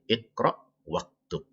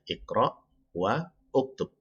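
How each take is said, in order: First: The words are joined and the initial vowel drops. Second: The words are read separately with the initial vowel. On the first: "kalau dibacanya menjadi Iqra waktub" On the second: "Dari kata Iqra wa dan uktub ya"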